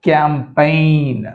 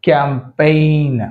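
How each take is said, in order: The two takes are said the same way.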